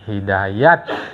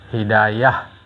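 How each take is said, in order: First: The word ends with a t sound. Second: The word ends with an h sound. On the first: This is the Iranian way of saying it. "cara Iran" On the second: This is the Arabic way of saying it.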